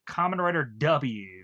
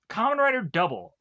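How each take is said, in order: First: The letter is said as 'double-you'. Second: The letter is said as 'double'. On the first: This is how an American would say it. "I'm just gonna pronounce it Kamen Rider W" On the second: This is how the show's makers say it. "the way that they pronounce"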